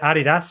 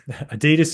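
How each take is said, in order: First: It is pronounced the non-American way. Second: It is pronounced the American way. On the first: "as the rest of the world says" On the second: "as the Americans say"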